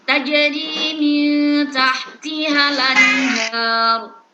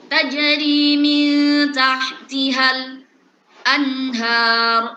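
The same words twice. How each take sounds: First: The words run straight into 'anhar' without a break. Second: A brief break comes just before 'anhar'. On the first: "Kan nakal kan memindahkan harokat" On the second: "Itu ketika dibaca dengan sakit atau sakta"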